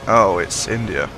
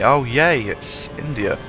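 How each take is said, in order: First: It sounds flat and disappointed. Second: It sounds cheerful and excited. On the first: The speaker is not looking forward to the race. "I say" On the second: The speaker is glad the race is coming. "I never say"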